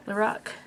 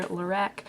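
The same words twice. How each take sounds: First: Lorac said to rhyme with rock; alternative pronunciation. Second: Lorac said to rhyme with rack; assumed pronunciation. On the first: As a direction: say Lorac with an open "ah" in the last syllable. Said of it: "I assume it's pronounced Lorac". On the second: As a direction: say Lorac with a flat "a" as in cat in the last syllable. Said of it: "it's just Carol backwards". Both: Shown as a demonstration.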